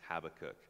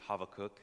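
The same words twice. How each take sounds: First: The name is pronounced the usual English way. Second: The name is pronounced the Hebrew way.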